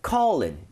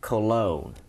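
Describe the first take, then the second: First: The stress is on the first syllable. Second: The stress is on the second syllable. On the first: It names an internal body organ. The speaker calls it wrong. "얘를 만약에 calling 이렇게 하게 되면은" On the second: It names a fragrance. The speaker calls it right. "두 번째 오의 강세를 하나 찍어주세요"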